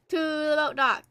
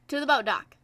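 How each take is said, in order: First: "To" held long, rest at normal pace. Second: Said in the usual way. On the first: Real, not acted. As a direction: stretch "To" out long before "the boat dock". Repeats it with a drawn-out start.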